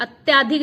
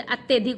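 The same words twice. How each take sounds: First: Loud long aa in अत्याधिक; wrong form. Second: Short vowel in अत्यधिक; correct form. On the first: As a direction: stretch -tyaa- in अत्याधिक. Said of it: "अत्याधिक नहीं होता". (गलत उच्चारण, अत्याधिक में आ) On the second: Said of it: "अत्यधिक होता है". (सही उच्चारण, अत्यधिक में अ) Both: Shown as a demonstration.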